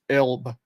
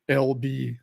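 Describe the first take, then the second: First: It is said as one single short word. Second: It is spelled out as two separate letters. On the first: The speaker calls it right. "It isn't. It's Elb" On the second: The speaker calls it wrong. "I always thought it was L B as in L B as initials"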